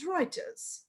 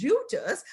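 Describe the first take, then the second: First: Reuters said "ROY-ters", with an oy sound; Reuters as pronounced. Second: Reuters said with a "you" sound, like "ROO-ters"; Reuters as spelt. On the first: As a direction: rhyme the start of Reuters with "boy". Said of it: "but we pronounce it as Reuters". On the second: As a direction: say Reuters by its spelling, "REW-ters". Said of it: "although the spelling is Reuters". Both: Shown as a demonstration.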